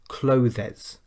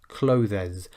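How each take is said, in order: First: The word is said with two syllables. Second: The word is said with two syllables.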